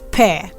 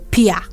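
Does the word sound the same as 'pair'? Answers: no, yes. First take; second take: yes; no. First: It sounds exactly like the word 'pair'. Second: The vowel differs from the one in 'pair'. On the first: The speaker calls it right. "the right pronunciation of this word is pear. The same way you say pair" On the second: The speaker calls it wrong. "Most people pronounce this one as pear"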